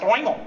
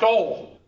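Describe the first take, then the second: First: "oil" as a Pennsylvanian talking through the nose; nasal Pennsylvanian accent. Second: Said in the usual way. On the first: Shown as a demonstration. Teacher mocking Pennsylvanians to the class, nasal "oil". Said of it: "you talk through your nose". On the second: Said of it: "if you're not, then it's pronounced".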